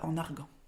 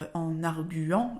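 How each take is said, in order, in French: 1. Le u qui suit le g ne se prononce pas. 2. Le u qui suit le g se prononce. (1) "et non pas" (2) "on dit bien"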